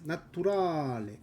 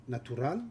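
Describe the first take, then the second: First: Naturale with the Italian ending and stress on ra; Italian pronunciation. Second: Natural said the French way, stress on the end; French pronunciation. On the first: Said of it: "Italian I think it's". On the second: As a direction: say natural as a French speaker would. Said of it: "in French we said". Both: Shown as a demonstration. Streamer contrasting French with Italian.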